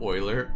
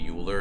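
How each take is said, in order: First: The name begins with an 'oy' sound. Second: The name begins with a 'yoo' sound. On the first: The speaker calls it right. "instead of Euler" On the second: The speaker calls it wrong. "mispronounce like Euler's name"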